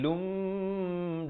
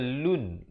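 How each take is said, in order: First: It ends in a nasal m held two counts. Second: It ends in a short plain n sound. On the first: A following mim merges into it. "bila datang mim jadi lum, dua harakat" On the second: This is the original form. "Asalnya lun"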